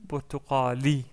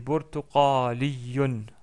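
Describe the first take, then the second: First: The word ends on a long i vowel. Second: The word ends with a -yun syllable. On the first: "si on s'arrête sur le mot" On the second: "il y a un doublement de ... un tanwin à la fin"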